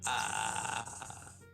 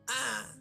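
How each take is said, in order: First: It is drawn out slowly. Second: It is said short and quick.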